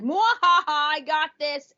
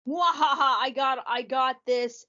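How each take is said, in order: First: Mad scientist. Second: High gloating villain cackle; mad scientist. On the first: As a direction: cackle like a smug villain. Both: Pretend. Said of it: "Blitz is gonna be like".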